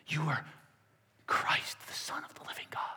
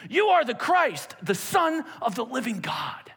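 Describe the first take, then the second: First: Hushed whisper. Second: Bold proclamation. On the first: Shown as a demonstration. Preacher repeating Peter's confession as a soft whisper. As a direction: whisper it softly. Quiet retake of Peter's words. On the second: Retold or imitated. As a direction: proclaim it with full conviction. Peter's confident declaration.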